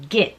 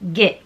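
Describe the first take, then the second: First: The vowel is a short, closed 'ih' sound. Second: The same.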